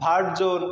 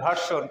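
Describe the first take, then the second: First: The middle consonant is a voiced z sound. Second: The middle consonant is a voiceless s sound. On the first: "শোন হয়েছে জোন" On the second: "যেটা বলি আমরা ভার্সন"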